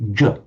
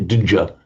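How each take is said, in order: First: A single j sound is heard. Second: A separate d sound comes before the j. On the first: The speaker calls it right. "we say j" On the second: The speaker calls it wrong. "We don't say dj"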